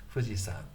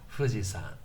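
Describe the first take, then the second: Both takes have the same delivery.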